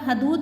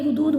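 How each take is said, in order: First: The first syllable has an 'a' vowel. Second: The first syllable has a 'u' vowel. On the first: The speaker calls it wrong. "यहाँ भी आप हदूद बोल देते हैं" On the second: The speaker calls it right. "ये हुदूद होता है"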